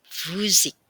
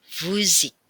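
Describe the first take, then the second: The two takes are said the same way.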